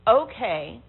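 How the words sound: It is said in a disapproving, negative tone. It is not acceptable at all. "The third one makes you think it's not okay at all"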